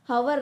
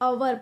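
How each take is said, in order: First: The word begins with an audible h sound. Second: The word begins with a vowel, no h. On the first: The speaker calls it wrong. "हवर नहीं" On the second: The speaker calls it right. "अवर पढ़ना चाहिए"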